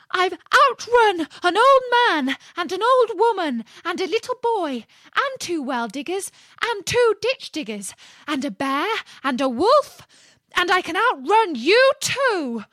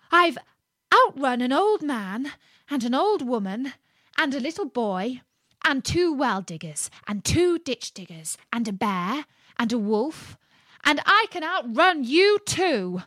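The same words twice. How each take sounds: First: High, loud screamed boast. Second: Raised storybook call, higher at the end; very loud voice. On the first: Gingerbread man screams his boast at the fox, shrieking. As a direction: shriek the whole list at the listener. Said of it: "screamed out". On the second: Gingerbread man repeats his boast to the fox, calling loudly. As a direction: call it out, building to the last line. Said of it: "called out in a very loud voice". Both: A narrator's reading.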